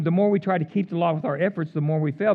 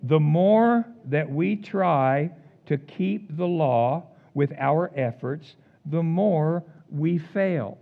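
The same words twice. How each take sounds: First: Brisk rundown of a familiar line; fast, offhand repeat; quick recap. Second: Drawn out slow, each word given weight; measured, emphatic sermon line; slow, weighty statement. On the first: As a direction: rattle it off as a reminder. Repeats key line in passing. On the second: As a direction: lay it down slowly like a verdict. Preacher states his key line. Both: Acted.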